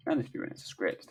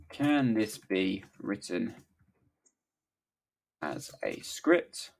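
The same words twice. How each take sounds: First: Fast, softer muttered read-back; quick read-back. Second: Very slow, word by word; halting dictation with long gaps. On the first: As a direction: skim it under your breath. Quickly rereads the typed prompt. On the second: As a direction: spell it out as if typing along. Dictates the prompt while typing. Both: Real, not acted.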